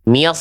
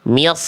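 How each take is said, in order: No difference in how they are said.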